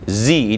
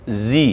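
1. Gigi rapat, sehingga terdengar z. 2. Gigi rapat, sehingga terdengar z.

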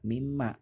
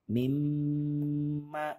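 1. Bunyi dengung diucapkan cepat dan pendek. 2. Bunyi dengung ditahan panjang dan ditekan. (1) "tidak boleh dibaca seperti itu" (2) "ditekan dan ditahan dua harokat"

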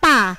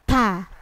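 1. Huruf t tidak ada hembusan udara. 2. Huruf t ada hembusan udara. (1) "Kalau kita biasanya bahasa Indonesia atau bahasa Jawa" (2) "Jadi harus ada udara yang keluar"

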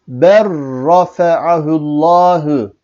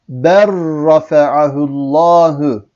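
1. L sesi çift r sesine karışır. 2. L sesi çift r sesine karışır.

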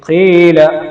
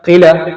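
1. സ്വരം രണ്ട് എണ്ണം നീട്ടിപ്പിടിക്കുന്നു. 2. സ്വരം ഒട്ടും നീട്ടുന്നില്ല. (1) "അത്ര മാത്രം നീട്ടിയാൽ മതി" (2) "നീട്ടാതെ"

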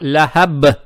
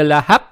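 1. Конечная b остаётся полностью звонкой. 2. Конечная b оглушается, звучит как p. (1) "а ляхаб" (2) "букву ба не оглушаем. То есть не ляхаб"

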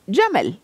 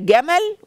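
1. الحرف الأول صوت J ناعم. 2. الحرف الأول صوت G قوي. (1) "وهناك بيبقى اسمه جمل، بتعطش الجيم" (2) "فهنا اقول ده جمل"

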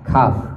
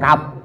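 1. Bunyi akhirnya berdesir, udara keluar. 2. Bunyi akhirnya hambat tertutup, tanpa udara. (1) "Dia ada angin yang keluar" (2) "Dia bukan kap"

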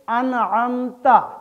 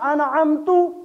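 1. शब्द का अंत a स्वर से होता है। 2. शब्द का अंत u स्वर से होता है।

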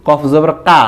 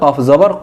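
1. শেষ স্বরধ্বনিটি বাংলা 'aa'-এর মতো উচ্চারিত হয়। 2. শেষ স্বরধ্বনিটি হ্রস্ব, 'aa' ধ্বনি ছাড়া। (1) "আকার দিয়ে বাংলাতে উচ্চারণ করি ... এটা ভুল উচ্চারণ" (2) "সঠিক উচ্চারণ হবে"

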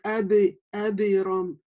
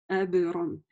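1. После б звучит дополнительный гласный звук. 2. Б произносится закрыто, без добавленного гласного. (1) "Иногда говорят эберон" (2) "Б в середине четко произносим"

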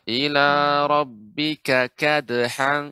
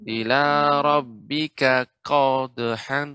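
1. Suku kata pertama dari kadhan memiliki a yang ringan dan jelas. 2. Suku kata pertama dari kadhan terdengar berat, mendekati o. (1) "ini yang benar" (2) "yang keliru tadi"

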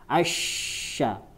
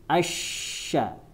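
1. Konsonannya bunyi sh. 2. Konsonannya bunyi sh.

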